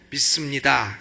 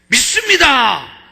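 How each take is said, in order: First: It is said weakly and softly. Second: It is said loudly and forcefully.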